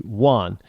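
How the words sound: It is said with an American pronunciation. The speaker is Americanized. "if you're Americanized, then y- your name might be Juan"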